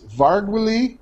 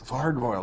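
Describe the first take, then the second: First: The ending does not rhyme with gargoyle. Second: The ending rhymes with gargoyle. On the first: The speaker calls it wrong. "I don't know how to pronounce this" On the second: The speaker calls it right. "Oh, that's better"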